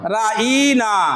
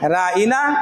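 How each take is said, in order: First: The middle vowel is drawn out long. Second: The middle vowel is short. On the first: Foolish one. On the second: Look after us.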